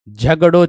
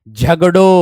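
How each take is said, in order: Both takes have the same delivery.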